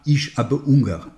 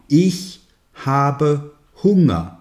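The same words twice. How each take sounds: First: The H at the start of Hunger is silent. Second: The H at the start of Hunger is breathed. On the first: The speaker calls it wrong. "Un Français qui prononce mal dira" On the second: The speaker calls it right. "Mais non"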